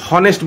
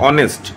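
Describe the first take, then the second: First: হনেস্ট with the h pronounced; wrongly sounded h. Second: অনেস্ট begun straight on the vowel; silent h. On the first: Teacher shows students what not to say, হনেস্ট with h sounded. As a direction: start হনেস্ট on an audible h. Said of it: "হনেস্ট বলছি না কিন্তু". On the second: Teacher explains silent letters to students, অনেস্ট said without its h. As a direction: say অনেস্ট with no h sound. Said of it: "এইচটা কিন্তু উচ্চারণ হচ্ছে না, অনুচ্চারিত থাকছে". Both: Shown as a demonstration.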